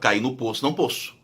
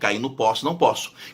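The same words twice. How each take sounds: First: Both o vowels are pronounced closed. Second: Both o vowels are pronounced open. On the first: "começava a falar fechado, aí ficava tudo fechado" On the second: "começava a falar o O aberto, ficava tudo aberto"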